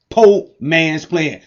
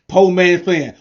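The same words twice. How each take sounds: First: Each word drawn out slowly; slow emphatic name. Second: Said in the usual way. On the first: Shown as a demonstration. Pitchman slowly stamping the brand name for viewers. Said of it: "Say it with me". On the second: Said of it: "Say it with me, everybody".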